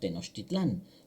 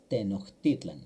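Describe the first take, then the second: First: The stress is on the last syllable. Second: The stress is on the second-to-last syllable. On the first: This is how it is said in Spanish. The speaker calls it wrong. "cuando lo decimos en castellano o en español hoy le decimos Tenochtitlán" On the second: This is how it is said in Nahuatl. The speaker calls it right. "realmente la palabra correcta en náhuatl es Tenochtitlan"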